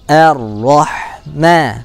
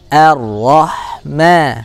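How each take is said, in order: First: The opening vowel sounds thin, like a smiling a. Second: The opening vowel sounds thin, like a smiling a.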